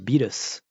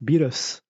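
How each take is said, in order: First: It is said with a foreign, Japanese-style pronunciation. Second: It is said with a foreign, Japanese-style pronunciation.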